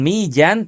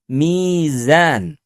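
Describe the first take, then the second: First: The middle consonant is a 'j' sound. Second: The middle consonant is a 'z' sound. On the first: The speaker calls it wrong. "Bukan mijan" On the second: The speaker calls it right. "tapi mizan"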